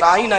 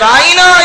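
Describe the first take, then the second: First: The word is said short and plain. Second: The word is stretched out and drawn long. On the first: Please be gentle with us and explain simply. The speaker calls it right. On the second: It mockingly means shepherd of our sheep. The speaker calls it wrong.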